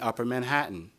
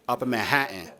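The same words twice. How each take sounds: First: It is said in the speaker's neutral accent. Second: It is said in a Bronx accent.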